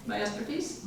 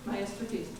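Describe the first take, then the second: First: Rising, unsure question on "Masterpiece"; "Masterpiece" as if checking the word. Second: Said in the usual way. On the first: Real, not acted. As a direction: read "Masterpiece" tentatively, lifting the end. Unsure reading, then confirms the word.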